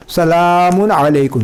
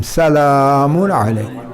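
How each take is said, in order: First: सलामुन with a heavy, full-mouthed ला, as a mistake; wrong heavy lam. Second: सलामुन with a thin, light ला, slowly; correct light lam. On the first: Teacher imitates the wrong heavy सलामुन. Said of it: "ये गलत है". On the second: Teacher gives the correct light सलामुन. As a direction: say सलामुन the right way, L kept light. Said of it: "हम पढ़ेंगे सलामुन अलैकुम". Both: Shown as a demonstration.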